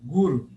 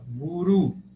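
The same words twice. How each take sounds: First: The stress is on the first syllable. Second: The stress is on the last syllable. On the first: "acentuei a penúltima sílaba, paroxítona" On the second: "acentuei o, a última sílaba, oxítona"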